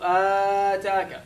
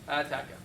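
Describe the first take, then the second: First: The vowel is stretched out extra long. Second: The vowel is held at normal length. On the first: The speaker calls it wrong. "Don't do ataka" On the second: The speaker calls it right. "Just ataka. The normal length as you say qala"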